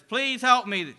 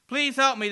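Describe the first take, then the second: First: High loud desperate cry; man falling alone, shouting for help; shouting again. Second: High loud cry into darkness; man falling alone, shouting for help. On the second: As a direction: call out desperately into the void. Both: Acted. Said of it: "the man shouts into the darkness".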